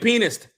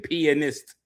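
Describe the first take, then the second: First: The word is said in a Southern pronunciation. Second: The word is said in a careful pronunciation. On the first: It sounds like a different, embarrassing word. The speaker calls it wrong. "if you don't say it right, and I'm Southern" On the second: It clearly means a piano player. The speaker calls it right. "you got to make sure you say pianist"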